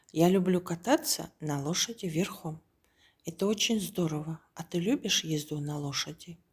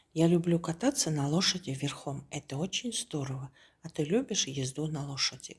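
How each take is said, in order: Both takes have the same delivery.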